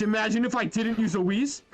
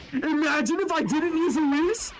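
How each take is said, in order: First: Said in the usual way. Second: Higher, silly mock-incredulous repeat; squeaky mock voice. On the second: Shown as a demonstration. Gamer teasing himself about skipping the Whis, squeaky mock voice. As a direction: say it again in a squeaky put-on voice.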